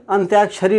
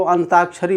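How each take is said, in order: First: अंत्याक्षरी with a clear half त्य glide, ant-ya-ksha-ri; correct pronunciation. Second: अंताक्षरी with a full ता and no य glide, an-taa-ksha-ri; common wrong pronunciation. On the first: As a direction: say अंत्याक्षरी with the half consonant त् joined to य. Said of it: "पूरा ता की मात्रा से पढ़ते हैं, तो वो गलत है". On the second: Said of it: "बहुत सारे लोग इसको अंताक्षरी बोल, पढ़ते हैं". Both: Shown as a demonstration.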